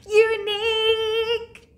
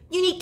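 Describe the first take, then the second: First: It is said loudly. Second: It is said quickly.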